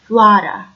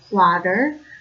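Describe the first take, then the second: First: The final R is dropped. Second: The final R is pronounced. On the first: "there are no R's at the end of words" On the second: "from a standard American English"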